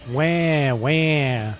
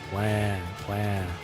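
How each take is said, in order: First: The voice is lively, like a crying child. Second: The voice is flat and monotone throughout. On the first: "sound like a goddamn child crying" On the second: "in the most dead monotone voice"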